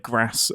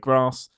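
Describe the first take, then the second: First: It is said in a northern English accent. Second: It is said in a southern English accent. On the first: This is how the other region says it. "they'll say grass" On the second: This is how the speaker's own region says it. "we'll say grass"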